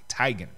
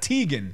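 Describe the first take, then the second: First: The first syllable sounds like 'tie'. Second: The first syllable does not sound like 'tie'. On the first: The speaker calls it right. "like a like a necktie" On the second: The speaker calls it wrong.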